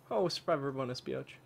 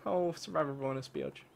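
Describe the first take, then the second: No difference in how they are said.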